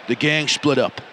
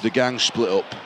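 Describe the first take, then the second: First: Lightly acted New York mobster accent; put-on New York accent. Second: Low, lightly acted Yorkshire boss accent; broad Yorkshire accent. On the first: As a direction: mafia boss reporting in a mock New York accent. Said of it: "I've got to do an accent". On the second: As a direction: report it like a Yorkshire mafia boss. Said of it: "I'm a Yorkshireman in New York".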